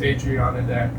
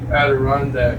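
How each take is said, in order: First: The name sounds like 'Adriana Deck'. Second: The name sounds like 'Adirondack'. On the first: The speaker calls it wrong. "when I was a kid, I used to pronounce that as" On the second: The speaker calls it right. "But it is indeed"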